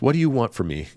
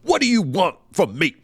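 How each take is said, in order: First: It sounds sincere and gently pleading. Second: It sounds exasperated and demanding.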